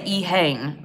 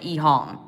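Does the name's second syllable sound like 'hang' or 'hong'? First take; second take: hang; hong. First: The second syllable sounds like 'hang'. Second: The second syllable sounds like 'hong'. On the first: "Some people say Ehang" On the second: "I think they pronounce it Ehong"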